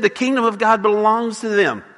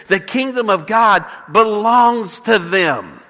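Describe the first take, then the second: First: Said in the usual way. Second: "The kingdom of God belongs to them" drawn out slowly, each word weighed; slow it right down and weigh each word; solemn, slow pronouncement. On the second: Retold or imitated. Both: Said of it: "You hear what he just said?".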